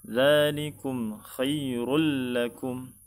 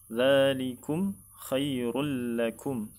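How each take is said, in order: The two takes are said the same way.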